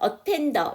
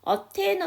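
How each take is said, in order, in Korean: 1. D는 발음되고 모음과 연결돼요. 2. D는 빠지고 N이 모음과 연결돼요. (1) "attend 다음에 어가 나왔으니까 attender. 이게 첫 번째 발음이고요" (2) "D 발음을 하지 않고 아예 N 사운드를 넘겨요"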